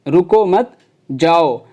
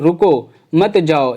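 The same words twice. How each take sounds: First: There is a pause right after 'mat'. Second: There is a pause right after 'ruko'.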